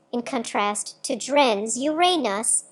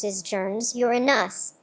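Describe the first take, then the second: First: Uranus said slowly as yoo-RAY-nus, stress on the second syllable with a long A. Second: Uranus said slowly as YOOR-uh-nus, stress on the first syllable. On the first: Narrator contrasting the other accepted form, stress on second syllable. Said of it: "with stress on the second syllable and a long A". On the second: Narrator showing the astronomers' preferred form, stress on first syllable. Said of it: "with stress on the first syllable". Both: Shown as a demonstration.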